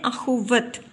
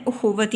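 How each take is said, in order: First: अखुवत begun with an a sound; wrong pronunciation. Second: उखुवत begun with a short u; correct pronunciation. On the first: Teacher shows learners the common misreading, अखुवत mispronounced with initial a. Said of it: "जब हम इसको गलत तरीके से पढ़ते हैं". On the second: Teacher corrects the misreading for learners, उखुवत pronounced with initial u. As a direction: say उखुवत with u on the alif. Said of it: "लेकिन सही इसका तलफ़ुज़ है". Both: Shown as a demonstration.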